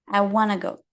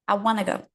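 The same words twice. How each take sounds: First: Want to is reduced and blended into wanna. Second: The same.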